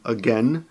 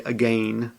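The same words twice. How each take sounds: First: It is pronounced the way native speakers say it. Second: It is pronounced the way Japanese teachers say it. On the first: The speaker calls it right. "instead of saying again" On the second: The speaker calls it wrong. "they will say again"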